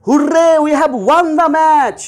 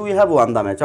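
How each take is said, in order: First: High, loud Hurray, delighted; joyful cheer. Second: Said in the usual way. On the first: Shown as a demonstration. Teacher showing students how joy sounds, high joyful cheer. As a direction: cheer the win with real joy. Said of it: "আমার খুব আনন্দ হচ্ছে". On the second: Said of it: "কোনো ইমোশনই আমি প্রকাশ করিনি".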